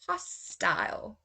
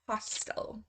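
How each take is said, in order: First: The last syllable rhymes with 'aisle'. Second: The last syllable is a weak 'ul' sound. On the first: "first I will say the U K pronunciation" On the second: "then I will go over to the U S pronunciation"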